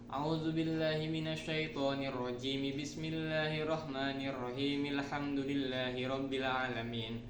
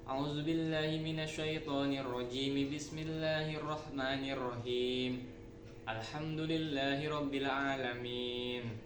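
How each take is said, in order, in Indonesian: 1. Ketiga bagian dibaca menyambung tanpa berhenti sama sekali. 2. Dua bagian pertama disambung, lalu berhenti sebelum bagian terakhir. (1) "ta'awuz basmalah dalam surat diwasolkan" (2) "ta'awuz dan basmalah diwasol, surat surat diwaqaf"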